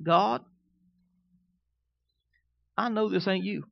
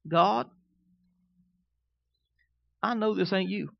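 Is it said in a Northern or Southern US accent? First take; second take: Southern; Southern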